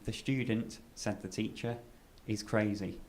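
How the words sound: There are pauses around said the teacher.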